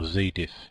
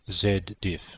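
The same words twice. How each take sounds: First: The Z is said 'zee', North American style. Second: The Z is said 'zed', non-North American style.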